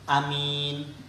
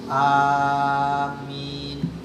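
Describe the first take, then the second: First: The first vowel is short. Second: The first vowel is held long. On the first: "Karena matnya itu pendek" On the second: "A-nya ini panjang sekitar enam harokat"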